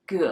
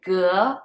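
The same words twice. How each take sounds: First: The pitch dips low, then rises again. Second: The pitch rises from middle to high. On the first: It means boat. "The third one, ge, is boat" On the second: It means square. "The second one, ge, is square"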